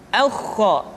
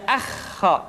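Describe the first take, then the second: First: "Aukho" with a thick, rounded first vowel; thick heavy kh. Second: "akhho" with a thin open a before kh; thin, wrong kh. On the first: Teacher showing correct kha, "Aukho" said thick. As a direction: thicken "Aukho" before the throaty kh. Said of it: "dengan suara yang tebal". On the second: Teacher showing what to avoid, "akhho" said thin. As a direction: keep the first vowel of "akhho" light. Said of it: "tidak akhho". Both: Shown as a demonstration.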